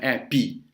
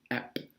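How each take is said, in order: First: An extra vowel sound follows the final P. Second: The word ends cleanly on the P sound. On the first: The speaker calls it wrong. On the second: The speaker calls it right.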